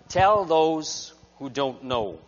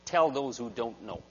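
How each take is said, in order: First: "Tell those who don't know" said very slowly, every word weighted; slow emphatic punchline. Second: Said in the usual way. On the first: Shown as a demonstration. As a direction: land the moral slowly and firmly.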